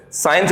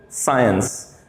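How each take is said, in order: First: साइंस with a long "saa-eens" like most Indians say it; the common mispronunciation. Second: साइंस with "sigh" as in सायकाल, low and soft; correct pronunciation. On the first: Teacher imitating students saying साइंस the usual way. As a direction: imitate the learners' साइंस first. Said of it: "मैं आपकी तरह बोल के बताऊंगा पहले". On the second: Teacher drills the corrected साइंस. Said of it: "क्या बोलेंगे हम उसको?". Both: Shown as a demonstration.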